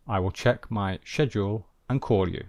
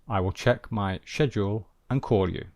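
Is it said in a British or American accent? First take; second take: British; British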